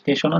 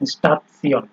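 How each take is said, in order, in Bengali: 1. এটি ইংরেজি 'shun' উচ্চারণে শেষ হয়। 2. এটি 'tsee-on' উচ্চারণে শেষ হয়। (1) "নর্মালি আপনার হচ্ছে স্টেশন, ইংলিশে যখন আমরা পড়তাম" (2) "কিন্তু উচ্চারণটা হচ্ছে স্টাতসিয়ন"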